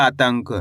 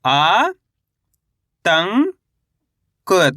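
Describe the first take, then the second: First: Said in the usual way. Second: आ, तंग, क drawn out separately, first two rising; spell-reading आ, तंग, क in held, rising syllables. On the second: Shown as a demonstration. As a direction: sound out आ ... तंग ... क with gaps. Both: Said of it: "तो मिलके बन जाएगा".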